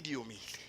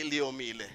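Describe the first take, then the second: First: Diomile said with a D sound at the start; "Diomile" softly, with D for the written L; Sesotho pronunciation. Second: Leomile said with an L at the start; "Leomile" with an opening L sound; spelling-based pronunciation. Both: Shown as a demonstration. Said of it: "that's how they say it".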